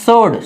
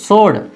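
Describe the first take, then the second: No difference in how they are said.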